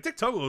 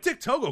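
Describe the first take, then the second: First: "Dick Togo" as a brisk exclamation, barely raised in pitch; exclaimed. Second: "Dick Togo" pitched very high, as a puzzled question; questioning disbelief. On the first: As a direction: read "Dick Togo" like a tweet ending in an exclamation mark. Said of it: "exclamation point". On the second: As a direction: read "Dick Togo" like a baffled tweet with a question mark. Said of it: "question mark". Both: Retold or imitated.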